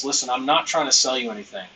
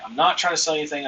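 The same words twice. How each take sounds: First: Not pressed a little harder; "not" said firmly, rest light; stress on not. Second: Quick line with "not" leaned on; fast, light, "not" marked; stress on not. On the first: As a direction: lean on "not" in "I'm not trying to sell you anything". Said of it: "Notice how I said "not," ... I'm emphasizing it". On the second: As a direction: hit "not" in "I'm not trying to sell you anything". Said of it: "I'm emphasizing it". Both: Shown as a demonstration.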